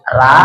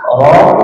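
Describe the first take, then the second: First: The r is said thin, with a light vowel. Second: The r is somewhat thick, not fully backed. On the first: "Ra itu salah" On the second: "Roh belum sempurna"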